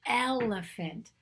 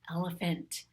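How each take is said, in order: First: Elephant slowed, leaning on the opening eh; stressed first sound. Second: Said in the usual way. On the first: Shown as a demonstration. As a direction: stretch the first vowel of elephant. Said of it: "That's the sound of the letter E". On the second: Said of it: "I'm gonna choose elephant".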